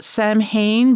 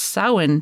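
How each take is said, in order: First: The word is said with an Anglicized pronunciation. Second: The word is said with a Gaelic pronunciation. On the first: The speaker calls it wrong. "a lot of people pronounce it Samhain" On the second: The speaker calls it right. "it's pronounced Samhain because it's Gaelic"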